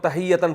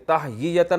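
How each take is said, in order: First: The middle is contracted to 'hiyya'. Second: The middle has a full 'hyiya' sequence. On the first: This is how the word is actually read. The speaker calls it right. "तो तहियतन पढ़ पढ़ते हैं इसको" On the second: This is the underlying, uncontracted form. The speaker calls it wrong. "ये तहयीयतन मुश्किल है"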